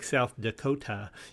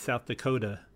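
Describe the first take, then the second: First: The T in Dakota is a clear T. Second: The T in Dakota is a D-like flap. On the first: "a consonant T in between two vowels" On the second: "you change it to a D"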